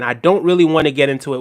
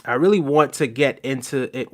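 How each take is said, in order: First: "don't" pushed louder to correct the line; stress on don't. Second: Said in the usual way. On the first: Shown as a demonstration. Streamer correcting a chat message, firm stress on "don't". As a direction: lean on "don't" to fix what chat wrote. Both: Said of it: "this is exactly what I'm saying".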